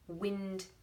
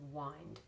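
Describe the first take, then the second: First: The vowel is short, as in 'pin'. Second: The vowel is long, as in 'find'. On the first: "the three words in your list that make the short sound" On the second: "this one is the wind as in wind it up"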